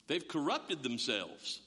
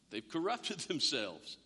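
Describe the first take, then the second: First: Slow emphasis. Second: Laughing through it. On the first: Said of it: "repeated for effect". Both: Shown as a demonstration.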